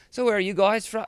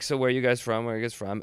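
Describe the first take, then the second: First: Put-on higher-pitched Australian girl, lifted on WHERE; Australian accent. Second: Said in the usual way. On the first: Girl at the bar to touring lads, mock Australian accent. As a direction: imitate an Australian girl asking brightly. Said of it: "they're Australian, and the one girl says". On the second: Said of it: "It's shifting into Irish".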